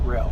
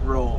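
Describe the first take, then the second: First: The vowel sounds like the one in 'mail'. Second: The vowel sounds like the one in 'pole'. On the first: This is how the company itself says the name. "they pronounce it rail" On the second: This is how some outsiders say the name. "Some people pronounce it roll"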